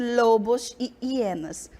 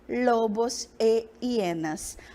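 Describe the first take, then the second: First: The conjunction is an 'ee' sound running into hienas. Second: The conjunction is a clear 'e' vowel before hienas. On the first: The speaker calls it wrong. "ao invés de lobos e hienas. Observem que o som fica travado" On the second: The speaker calls it right. "para que o som seja fluido, para que fique bonito"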